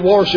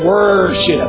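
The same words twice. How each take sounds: First: The first syllable sounds like 'wore'. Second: The first syllable sounds like 'wur'. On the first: The speaker calls it wrong. "W-O-R, because if not, he'll say worship" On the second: The speaker calls it right. "he's got it spelled right now, W-U-R"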